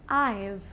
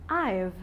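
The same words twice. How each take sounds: Both takes have the same delivery.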